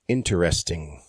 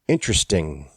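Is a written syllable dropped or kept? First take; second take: kept; dropped. First: Every written syllable is pronounced in the word. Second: One written syllable is dropped from the word. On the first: The speaker calls it wrong. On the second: The speaker calls it right. "more syllables written than there are pronounced"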